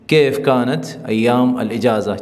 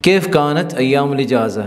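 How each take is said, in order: First: Slow model sentence. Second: Said in the usual way. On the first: Shown as a demonstration. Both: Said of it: "چھٹیوں کے دن کیسے تھے".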